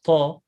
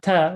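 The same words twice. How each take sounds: First: The ta is heavy, with a full sound. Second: The ta is light, with a thin sound. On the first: The speaker calls it right. "the ta is heavy ta" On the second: The speaker calls it wrong. "Not ta"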